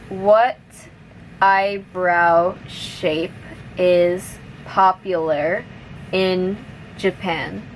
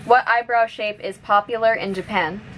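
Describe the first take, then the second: First: The sentence is spoken at moderate speed. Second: The sentence is spoken at normal, fast speed. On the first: "now a little bit faster" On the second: "one more time at normal speed"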